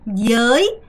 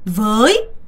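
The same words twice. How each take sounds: First: It is said with a southern Vietnamese pronunciation. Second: It is said with the standard northern pronunciation.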